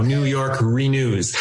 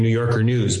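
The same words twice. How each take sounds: First: "New York Renews" with "Renews" kept separate from "York"; careful word division. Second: "New Yorker News" run together quickly; said fast, run together. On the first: Host correcting his misheard coalition name, said distinctly. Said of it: "I thought I was saying New Yorker News". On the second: Host showing how the coalition's name gets misheard, said fast. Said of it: "when I say it fast". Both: Shown as a demonstration.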